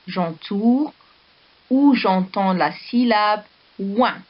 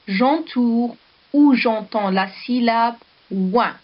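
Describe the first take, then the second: First: J'entoure, a clear pause, then the rest; teacher splitting the instruction into two chunks; pause after J'entoure. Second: Slow instruction. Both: Shown as a demonstration. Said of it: "teacher repeats the instruction".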